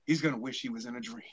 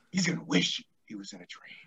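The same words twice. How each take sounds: First: Soft fast menacing line; quiet menace. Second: Said in the usual way. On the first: Shown as a demonstration. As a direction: drop to a threatening hush.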